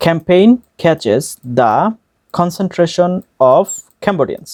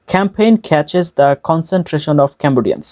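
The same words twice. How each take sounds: First: Very slow, with gaps between words. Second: Said in the usual way. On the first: Shown as a demonstration. Teacher breaks the line down for learners, slow word by word. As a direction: break it up and pause after each chunk. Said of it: "একটা একটা করে word উচ্চারণ করে".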